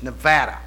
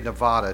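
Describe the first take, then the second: First: It uses the pronunciation people in the state use. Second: It uses the pronunciation outsiders to the state use. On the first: The speaker calls it right. "they said, it's Nevada" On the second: The speaker calls it wrong. "I used to say Nevada till I got up there"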